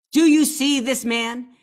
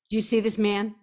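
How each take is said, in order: First: Repeating the question louder and slower for emphasis. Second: Said in the usual way. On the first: Shown as a demonstration. To viewers, showing the guide's photo, louder and slow. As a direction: lean in hard on the repeat, slowly.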